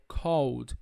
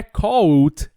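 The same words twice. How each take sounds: First: CALLED softer, ending in a voiced D. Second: CALLED ending in a hard T, louder; wrong T ending. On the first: Teacher correcting CALLED to a soft D ending. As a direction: close CALLED gently on a D. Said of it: "ele vai ter som de D". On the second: Teacher showing the mistake, CALLED closed with a loud T. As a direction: put a T on the end of CALLED. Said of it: "não é called". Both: Shown as a demonstration.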